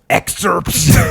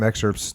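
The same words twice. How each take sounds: First: The word is said loudly with escalating emphasis. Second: The word is said plainly at normal volume. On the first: "you put your tone on it... escalation voice level twelve" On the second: "you don't say, hey, you know, we've got some excerpts"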